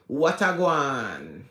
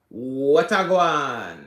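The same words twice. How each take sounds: First: The words are melted together into fewer syllables. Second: The words are melted together into fewer syllables.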